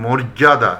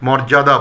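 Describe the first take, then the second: First: মর্যাদা said as "morjada"; closed "mor" opening মর্যাদা; correct close o. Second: মর্যাদা said as "mɔrjada"; mistaken open vowel. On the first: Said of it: "এটা বলতে হবে". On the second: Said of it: "এটা অনেকেই মর্যাদা বলে". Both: Shown as a demonstration.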